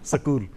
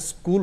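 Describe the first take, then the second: First: A vowel is added between 's' and 'k'. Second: It starts with the cluster 'sk' together.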